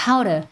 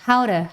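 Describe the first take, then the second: No difference in how they are said.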